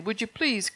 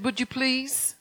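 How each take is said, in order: First: Lightly pleading ask; mild begging. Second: Raised, pleading ask; begging request. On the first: Jesus inviting believers up, understated pleading. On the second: Jesus inviting you up to third heaven, pleading. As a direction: plead the invitation gently upward. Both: Retold or imitated. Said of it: "he more or less begged you".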